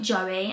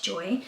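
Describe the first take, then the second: First: The name is said with two syllables. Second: The name is said with one syllable. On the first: The speaker calls it wrong. "I've been pronouncing it Joey and it's not" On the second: The speaker calls it right. "it's Joy"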